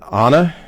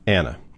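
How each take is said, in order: First: The name is said the Italian way. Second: The name is said the American way. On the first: "If you're Italian, you would pronounce it" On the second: "if you're in Maryland, I'm guessing"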